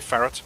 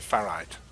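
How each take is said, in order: First: It sounds like the animal name ferret. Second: It does not sound like the animal name. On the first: "I will always say ferret" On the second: "I don't say ferrite"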